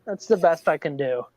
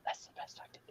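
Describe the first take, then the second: First: Said in the usual way. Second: Whispered, no voice; whispered aside. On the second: Shown as a demonstration. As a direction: breathe it out as a secret.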